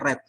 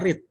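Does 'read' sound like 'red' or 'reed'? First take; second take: red; reed. First: It is said with a short e vowel. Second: It is said with a long ee vowel. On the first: It is the past or past participle form. "di verb dua dan verb tiga kita bacanya read" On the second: It is the present tense form. "Verb satu kita bacanya read"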